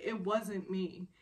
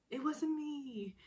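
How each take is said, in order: First: Slow, mildly insistent denial at normal pitch; earnest denial. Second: High, slow mock denial; teasing echo. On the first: Retold or imitated. Flustered woman correcting her teasing boss, earnest denial. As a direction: spell it out slowly and seriously. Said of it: "but seriously". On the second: Man repeating her denial to tease her, teasing echo. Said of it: "he said it in this way".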